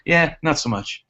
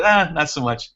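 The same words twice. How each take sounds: First: A lightly imitated shrug-off of quads, fall on "much"; mock unimpressed brush-off, a touch higher; dismissive stranger. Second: Lightly voiced unimpressed passer-by; dismissive stranger again. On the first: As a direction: toss off "not so much" like a passing New Yorker who couldn't care less. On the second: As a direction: shrug it off with a lazy "Ah" up front. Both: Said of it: "That's exactly how he said it".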